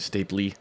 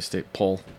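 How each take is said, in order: First: The word ends with an extra vowel sound. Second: The word ends without an extra vowel sound. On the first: The speaker calls it wrong. "you don't say staple-y" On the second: The speaker calls it right. "You just say staple"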